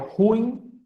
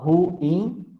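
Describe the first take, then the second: First: The word is said as one syllable. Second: The word is split into two syllables. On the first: The speaker calls it right. "Na verdade, é ruim e ruins" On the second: The speaker calls it wrong. "as pessoas falam"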